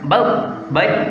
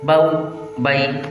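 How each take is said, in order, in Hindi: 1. स्वर की ध्वनि झटके के साथ अचानक कटी हुई है। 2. स्वर की ध्वनि छोटी है और नरमी से छोड़ी गई है। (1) "तो ये होता है झटका देना।" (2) "बल्कि नरमी से मारूफ पढ़ना है। किस तरह, इस तरह"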